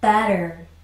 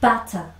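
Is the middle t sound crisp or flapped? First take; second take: flapped; crisp. First: The middle t is a soft flap sound. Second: The middle t is a crisp, hard stop. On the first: "미국식으로 한번 읽어볼게요. 부드럽게" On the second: "영국식 영어에서는 아주 딱딱하게 끊어줍니다"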